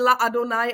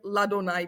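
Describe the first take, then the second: First: The two vowels at the join stay separate. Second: The two vowels at the join merge into one. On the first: The speaker calls it wrong. "A není La Adonaj" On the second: The speaker calls it right. "ale je Ladonaj. Prostě to je takový úzus"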